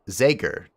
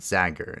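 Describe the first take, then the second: First: The first vowel is a long A. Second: The first vowel is a short A. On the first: The speaker calls it right. "Long A on my name" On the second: The speaker calls it wrong. "not Zager in pronunciation"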